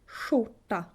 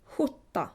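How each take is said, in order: First: Skjorta opening on "sh"; northern Swedish sh. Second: Skjorta opening on an airy back "h" sound; southern Swedish ch. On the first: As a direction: start skjorta as "shoorta". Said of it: "you would say sh". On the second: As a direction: start Skjorta as "hwoorta". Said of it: "you would say ch". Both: Shown as a demonstration.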